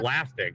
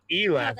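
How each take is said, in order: First: The first E is silent. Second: The first E is clearly sounded. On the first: The speaker calls it right. "That's how you say it. The E's silent" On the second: The speaker calls it wrong. "it's not elastic"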